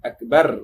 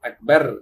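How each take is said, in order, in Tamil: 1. r ஒலி மெல்லியது, மெலிந்தது. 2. r ஒலி மெல்லியது, மெலிந்தது.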